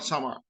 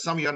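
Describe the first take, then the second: First: The middle consonant is followed by an 'a' vowel. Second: The middle consonant is followed by an 'i' vowel. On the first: The speaker calls it wrong. "not sama" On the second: The speaker calls it right. "the middle letter with the kasra"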